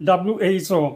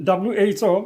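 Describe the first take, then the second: No difference in how they are said.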